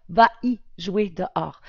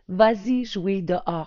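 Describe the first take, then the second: First: No z-sound links the verb to 'y'. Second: A z-sound links the verb to 'y'. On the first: The speaker calls it wrong. "On ne dit pas" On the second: The speaker calls it right. "on l'entend bien à l'oral, le S"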